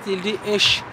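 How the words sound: Said with an sh sound, Tadrakt dialect.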